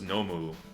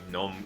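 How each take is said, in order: First: The final u vowel is fully pronounced. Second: The final u vowel is cut off. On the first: The speaker calls it wrong. "I thought that was Nomu" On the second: The speaker calls it right. "you just cut the the Mu"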